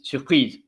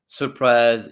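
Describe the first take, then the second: First: It is said with a French pronunciation. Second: It is said with an English pronunciation. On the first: The speaker calls it right. "It's surprise" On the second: The speaker calls it wrong. "It's not surprise in French"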